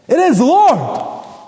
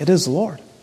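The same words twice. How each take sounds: First: It is said loudly with excitement. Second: It is murmured absently, as if thinking aloud. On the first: The recognition brings sudden joy. "Did he say it excitedly?" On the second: A passing thought is voiced without telling anyone. "kind of unconsciously saying"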